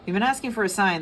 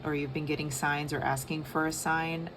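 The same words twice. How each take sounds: First: Higher, louder, leaning on asking; emphatic repeat. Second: Said in the usual way. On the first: Real, not acted. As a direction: punch asking in "you've been asking for a sign".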